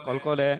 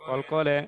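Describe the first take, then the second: No difference in how they are said.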